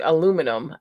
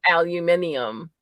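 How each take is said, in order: First: "aluminum" as uh-LOO-mi-num; American-style aluminum. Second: "aluminium" as al-yoo-MIN-ee-um; British-style aluminium. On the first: Asking how the others say it, four-syllable "aluminum". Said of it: "how do you". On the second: Comparing ways of saying the metal, five-syllable "aluminium". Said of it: "It's like, how do you". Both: Shown as a demonstration.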